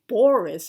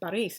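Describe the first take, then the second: First: The first vowel sounds like 'oh'. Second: The first vowel sounds like 'ah'. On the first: The speaker calls it wrong. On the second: The speaker calls it right. "Paris is properly pronounced"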